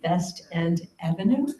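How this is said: It is said with a Yiddish accent.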